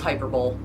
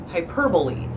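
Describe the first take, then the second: First: The word is said the way it is spelled. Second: The word is said the standard way. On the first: The speaker calls it wrong. "But no, it's hyperbole" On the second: The speaker calls it right. "to say it correctly, which is hyperbole"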